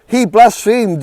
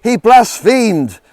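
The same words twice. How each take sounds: First: High, loud outraged shout again at full force; repeated furious yell. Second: Slow, high, loud outraged shout; furious yell. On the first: Chief priest to the council, repeated furious shout. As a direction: hammer the charge home once more. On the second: Chief priest to the council, furious high yell. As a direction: roar it out in outrage. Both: Acted. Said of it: "he yelled".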